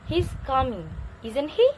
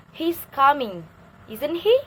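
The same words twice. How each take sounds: First: "He's coming" falls, then "isn't he" rises at the end; teacher showing a rising tag on "isn't he"; tag question rise. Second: "He's coming" falls, then "isn't he" rises high and loud at the end; teacher showing a rising tag on "isn't he"; tag question rise. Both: Shown as a demonstration. Teacher demonstrating a tag question to students, rising tag. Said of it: "horizontal line ... rising ... descending".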